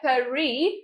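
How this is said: It is pronounced with a French accent. "pronunciation है Paris, which is in French"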